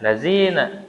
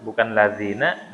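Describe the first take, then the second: First: "lazina" with a z for dh; mock mistaken "lazina"; dzal as zai. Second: "lazina" with th-like dh; proper "lazina"; correct dzal. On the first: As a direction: buzz a z in "lazina". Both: Shown as a demonstration. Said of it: "diucapinya zai".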